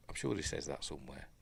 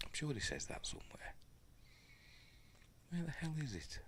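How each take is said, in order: First: Said in the usual way. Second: Unvoiced, exasperated murmur; a whispered grumble while searching; frustrated whisper. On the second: Real, not acted. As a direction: whisper it in irritation under your breath.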